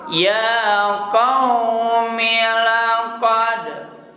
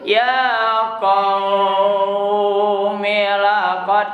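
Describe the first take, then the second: First: The vowel in qaumi is kept short. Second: The vowel in qaumi is drawn out long. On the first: "maka bacanya pendek" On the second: "kalau mad layyin ... kan mad panjang artinya"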